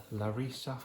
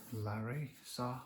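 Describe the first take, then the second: First: Larissa said quickly as one flowing word; alternative pronunciation. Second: Larissa said slowly, syllables drawn apart, falling at the end; alternative pronunciation. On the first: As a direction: say "Larissa" smoothly, without breaking it up. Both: Shown as a demonstration. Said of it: "how they pronounce it".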